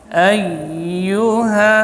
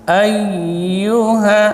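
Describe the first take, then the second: The two takes are said the same way.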